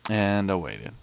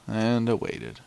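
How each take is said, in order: Both takes have the same delivery.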